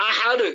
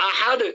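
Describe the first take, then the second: Both takes have the same delivery.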